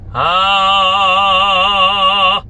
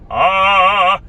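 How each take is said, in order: First: The vowel sounds fully open with the tongue forward. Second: The vowel sounds tucked back with a curled tongue. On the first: The speaker calls it right. "다 열린 거" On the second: The speaker calls it wrong. "이렇게 말리는 게 아니라"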